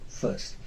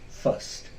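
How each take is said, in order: No difference in how they are said.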